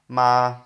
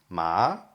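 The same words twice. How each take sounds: First: The pitch stays level and flat. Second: The pitch rises from low to high. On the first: It means mother. "if you have a flat tone" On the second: It means hemp. "If you if it rises"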